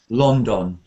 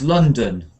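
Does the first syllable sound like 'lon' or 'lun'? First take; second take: lon; lun. First: Both vowels sound like the vowel in clock. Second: Both vowels are a short, relaxed uh sound. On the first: The speaker calls it wrong. "said incorrectly uses um, the vowel sounds of clock" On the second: The speaker calls it right. "The first sound is ah, and the second sound is uh"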